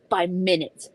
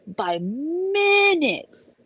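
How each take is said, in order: First: Said in the usual way. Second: By minutes stretched slow and much higher; drawn-out despair. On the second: Shown as a demonstration. Retelling the missed flight, stretching minutes in despair.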